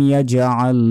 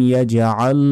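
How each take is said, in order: The two takes are said the same way.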